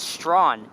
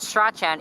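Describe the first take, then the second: First: The middle consonant sound is silent. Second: The middle consonant sound is pronounced. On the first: The speaker calls it right. "The C is silent" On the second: The speaker calls it wrong. "that is not how you pronounce it"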